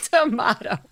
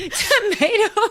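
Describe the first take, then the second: First: "tomato" with an AH in the middle; answering to-MAH-to for "tomato"; British-style tomato. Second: "Tomato" with an AY in the middle, high and laughing; giggled to-MAY-to for "Tomato"; American tomato. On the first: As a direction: say "tomato" as to-MAH-to, tune falling. Tomato, tomahto contrast. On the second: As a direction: say "Tomato" as to-MAY-to, tune rising. Tomato, tomahto contrast, laughing. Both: Shown as a demonstration.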